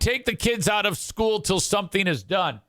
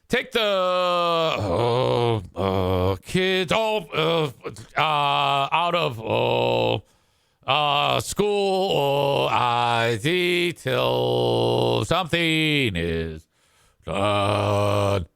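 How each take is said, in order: First: The sentence flows smoothly without filler sounds. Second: The sentence is broken up by many filler sounds. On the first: This is how the line reads when written. The speaker calls it right. "When you write it, it doesn't sound retarded" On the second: This is how the person would actually say it aloud. The speaker calls it wrong. "if you actually spoke it, it would be"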